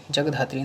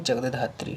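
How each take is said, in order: First: जगधात्री run together as jag-dhatri; wrong form. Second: जगधात्री as jagad-dhatri, doubled d; corrected form. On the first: Teacher shows the error to students, जगधात्री as jag-dhatri. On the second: Teacher corrects students, जगधात्री as jagad-dhatri. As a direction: put a full jagad before dhatri in जगधात्री. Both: Shown as a demonstration. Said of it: "नहीं".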